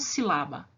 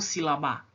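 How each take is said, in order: First: The stress is on the first syllable. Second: The stress is on a later syllable. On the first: The speaker calls it right. "Eu falo sílaba" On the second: The speaker calls it wrong. "e não sílaba"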